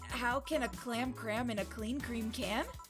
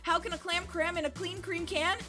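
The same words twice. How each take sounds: First: It is said at a slower pace. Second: It is said at a faster pace.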